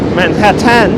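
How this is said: It is said in a visiting tourist's accent. "if you want to sound more like a tourist"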